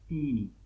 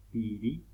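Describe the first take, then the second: First: "piri" with nasalised vowels, close to "pini"; nasal pronunciation. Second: Said in the usual way. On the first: Shown as a demonstration. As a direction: let "piri" ring through the nose. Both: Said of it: "la vocal suena por la nariz".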